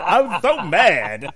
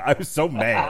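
First: Louder, higher, slow seething repeat; growled anger. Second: Said in the usual way. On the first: Shown as a demonstration. Retelling his fury at the TV host. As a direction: drag out I was so mad, louder.

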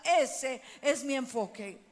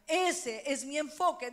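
First: Ese es mi enfoque slow and louder, ese stretched and stressed; slow emphatic declaration. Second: Said in the usual way. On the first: Shown as a demonstration. Pastor leading the congregation to repeat, slow and loud. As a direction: spell it out for the crowd to echo.

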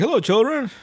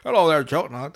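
First: Higher, louder cartoon cook greeting; Chef. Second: Badly faked cartoon cook greeting; garbled, half-hearted attempt at a character voice; Chef. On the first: Cook greeting kids at the counter, imperfect impression. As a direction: attempt a booming character hello, not quite convincing. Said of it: "I wish I could do a good voice". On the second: Cook greeting kids at the counter, worse impression. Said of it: "That sounded even worse".

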